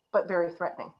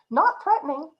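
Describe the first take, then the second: First: Mock menace. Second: Higher, lighter, mock-harmless; breezy and innocent. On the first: Speaker contrasting harmless and menacing tone, low mock menace. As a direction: let the menace sink down. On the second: Speaker contrasting harmless and menacing tone, light mock-innocent. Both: Shown as a demonstration.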